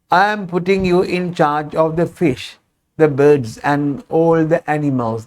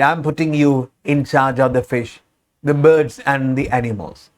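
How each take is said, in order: First: Deliberately slowed, careful reading pace; slowed classroom pace. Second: Said in the usual way. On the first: Shown as a demonstration. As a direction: drop the speed and talk like a textbook. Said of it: "That is not my natural pace". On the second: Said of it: "that is not my natural pace".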